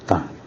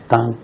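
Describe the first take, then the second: First: The pitch dips low then rises. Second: The pitch stays high and level.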